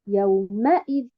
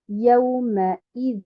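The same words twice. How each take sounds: First: The stress falls on the mim syllable. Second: The stress falls on the ya and hamza syllables. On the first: The speaker calls it wrong. "je ne mets un nabr sur harakat al-mim" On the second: The speaker calls it right. "je mets l'accentuation ou bien un nombre sur harakat al-ya, puis après sur harakat al-hamza"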